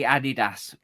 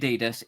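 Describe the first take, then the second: First: The name is said the German way. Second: The name is said the American way. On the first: The speaker calls it right. "It is actually Adidas because um, it's Adi Dazzler" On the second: The speaker calls it wrong. "Am- Americans say Adidas"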